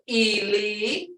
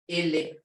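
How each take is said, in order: First: The word is said longer, not blunt. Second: The word is said short and blunt. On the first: It means dead. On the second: It means his or her foot.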